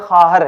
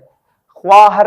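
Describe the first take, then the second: First: No w sound follows the first consonant. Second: A w sound follows the first consonant. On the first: The speaker calls it right. "ये खाहर है" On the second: The speaker calls it wrong. "ख्वाहर नहीं"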